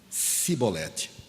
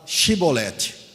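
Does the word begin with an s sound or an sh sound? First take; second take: s sound; sh sound. First: The word begins with a plain s sound. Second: The word begins with an sh sound. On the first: The speaker comes from the other tribe and is given away. The speaker calls it wrong. "E o cara falava assim" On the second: This is how the local people say the word. The speaker calls it right. "Então fala Shibolete"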